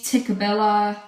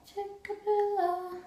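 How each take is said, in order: First: Said in the usual way. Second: Very high, soft and drawn-out Tickabilla; silly, slow, quiet squeal of a name; playful high voice. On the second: Pretend. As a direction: stretch Tickabilla out in a tiny high-pitched voice. Playfully repeats the show title.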